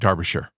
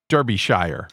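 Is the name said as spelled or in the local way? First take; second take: local way; as spelled. First: The name is said the local, non-spelled way. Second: The name is said the way it is spelled. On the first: The speaker calls it right. "but Derbyshire" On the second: The speaker calls it wrong. "is actually like spelled Derbyshire"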